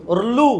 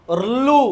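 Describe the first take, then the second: The two takes are said the same way.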